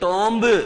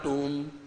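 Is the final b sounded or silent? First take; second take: sounded; silent. First: The final b is sounded after a short vowel. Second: The final b is silent after a long vowel. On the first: This is how the spelling suggests it should sound. The speaker calls it wrong. "बोलना तो कायदे से आपको क्या चाहिए?" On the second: This is how the word is actually pronounced. The speaker calls it right. "इसका उच्चारण क्या होता है? ... बी का उच्चारण नहीं होता"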